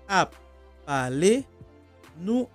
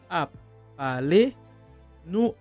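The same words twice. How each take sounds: No difference in how they are said.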